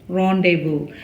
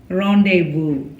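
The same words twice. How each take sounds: The two takes are said the same way.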